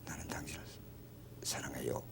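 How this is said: It is said shyly, almost in a whisper. "아주 수줍어하면서 속삭이듯"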